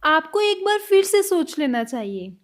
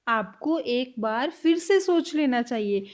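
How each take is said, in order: First: Said in the usual way. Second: Slow and a little lower, for learners; slow, careful repeat. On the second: Shown as a demonstration. Teacher repeating the line slowly for students. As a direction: spell each word out slowly. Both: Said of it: "next sentence".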